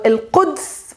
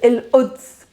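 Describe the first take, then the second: First: The 'q' sound is clearly pronounced. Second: The 'q' sound is replaced by a catch. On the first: This is the standard Arabic form. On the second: This is the Palestinian dialect form.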